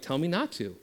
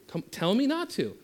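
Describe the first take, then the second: First: Said in the usual way. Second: Much higher, insistent challenge on "not"; pushing the dare. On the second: Shown as a demonstration. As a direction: egg them on, press harder.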